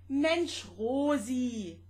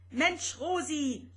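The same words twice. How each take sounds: First: Higher, loud friendly exclamation. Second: Higher, loud rattling outburst; clattering exclamation. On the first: Vanya telling Rosetta to stay relaxed, loud friendly call. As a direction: call out to calm her. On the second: Vanya exasperated with Rosetta's eyesight, loud rattling outburst. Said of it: "schepperte Vanya". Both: Acted.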